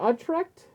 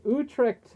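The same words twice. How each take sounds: First: Utrecht as UH-trekt, rising; questioning alternative pronunciation. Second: Utrecht with first syllable "oo"; tentative pronunciation. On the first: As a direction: try "Utrecht" with an "uh" opening, as a question. Offers another reading after "Or. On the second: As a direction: say "Utrecht" as OO-trekt. Tries alternative readings of name. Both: Real, not acted.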